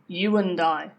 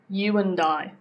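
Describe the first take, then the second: First: The word and is weak with a schwa. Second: The same.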